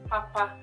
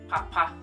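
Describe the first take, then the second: First: The word is said on a higher pitch. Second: The word is said on a lower pitch. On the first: "going higher makes it something is not good" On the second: "that's a bit of a lower tone"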